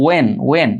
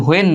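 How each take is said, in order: First: "when" as wen, h silent; correct pronunciation. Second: "when" with a sounded h, hu-en; wrong pronunciation. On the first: Teacher giving the right reading twice, careful pronunciation. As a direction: start "when" straight on w. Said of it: "উচ্চারণ হচ্ছে when না". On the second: Teacher showing what not to say, wrong pronunciation. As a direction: say "when" wrongly, breathing an h before the w. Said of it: "এটা উচ্চারণ হচ্ছে when না". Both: Shown as a demonstration.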